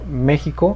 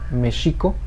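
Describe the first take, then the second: First: Stress on the first syllable, x sounds like j. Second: Stress on the second syllable, x sounds like sh. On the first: It is the Spanish way of saying it. "Es una palabra eh, esdrújula que se acentúa en la E. La X va a sonar como J" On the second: It is the Nahuatl way of saying it. "vamos a eliminar ese acento y va a ser una palabra grave. ... cambia el sonido a una S H"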